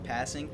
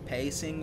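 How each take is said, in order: First: The first vowel is a short 'a' sound. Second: The first vowel is a long 'ay' sound. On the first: "I pronounce it as passing" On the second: "I've heard some people pronounce it as pacing"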